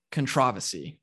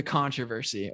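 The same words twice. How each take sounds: First: "controversy" stressed on the second syllable, con-TROV-ersy; British pronunciation. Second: Said in the usual way. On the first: Retold or imitated. Host quoting British F1 fans, "controversy" as con-TROV-ersy. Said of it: "a lot of them are, are Brits". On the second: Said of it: "or maybe as my, my fellow F one fans call it".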